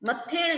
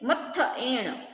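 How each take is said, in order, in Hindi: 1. दोनों स्वर मिलकर एक 'e' ध्वनि बन जाते हैं। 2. 'a' और 'e' अलग रखे जाते हैं। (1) "मत्थेण नहीं"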